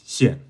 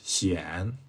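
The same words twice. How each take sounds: First: The name is said without any tone. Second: The name carries its Mandarin tone. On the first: This is how people in America say the name. "without the tone is" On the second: This is how people in China say the name. "with the tone is"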